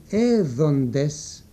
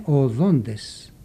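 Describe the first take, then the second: First: «έδοντες» stretched very slowly; old form said slowly. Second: «οδόντες» slow with stress on -ΔΟΝ-; new form said slowly. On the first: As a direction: dwell on each syllable of «έδοντες». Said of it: "η λέξη". (πολύ αργή, καθαρή προφορά του «έδοντες») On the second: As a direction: stretch «οδόντες», leaning on the middle syllable. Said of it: "έγινε". (αργό «οδόντες» με τόνο στο -δόν-) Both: Shown as a demonstration.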